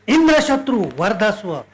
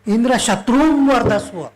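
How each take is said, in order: First: The emphasis falls on the word Indra. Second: The emphasis does not fall on Indra. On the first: Indra is the enemy, kill him. The speaker calls it right. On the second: Kill the enemy of Indra. The speaker calls it wrong.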